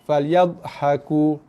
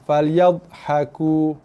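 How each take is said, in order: Both takes have the same delivery.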